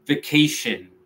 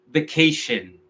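No difference in how they are said.

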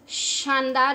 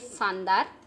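First: The word begins with an sh sound. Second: The word begins without an sh sound. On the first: The speaker calls it right. "श की आवाज़ आनी चाहिए" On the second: The speaker calls it wrong. "ये शानदार नहीं है"

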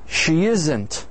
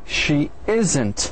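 The two takes are said the same way.

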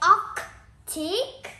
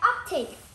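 First: The first c sound is clearly pronounced. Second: The first c sound is dropped. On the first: The speaker calls it wrong. "We don't say Arctic" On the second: The speaker calls it right. "We say Arctic. We speak fast"

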